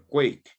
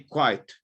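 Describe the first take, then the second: First: The vowel is a long ay sound. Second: The vowel is a long eye sound. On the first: "You say quiet or quake" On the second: "You say quiet or quake"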